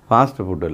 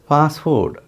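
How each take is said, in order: First: Each word ends with an extra vowel sound. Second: Each word ends cleanly on its consonant. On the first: The speaker calls it wrong. "ஆக்சுவலாக அது ஃபாஸ்ட்டு ஃபுட்டு இல்லை" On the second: The speaker calls it right. "ஃபுட் அப்படின்னு அதை உச்சரிக்கணும்"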